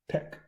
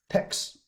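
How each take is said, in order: First: The word ends with a plain k sound. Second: The word ends with a ks sound. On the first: The speaker calls it right. "do not pronounce x, yeah, just tech" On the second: The speaker calls it wrong. "many people like like to pronounce text"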